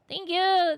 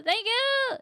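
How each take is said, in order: First: High, loud thank you; excited thanks. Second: Even higher, loud thank you; excited thanks again. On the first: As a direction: squeal it out. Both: Real, not acted.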